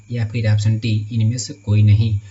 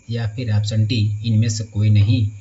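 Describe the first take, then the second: Both takes have the same delivery.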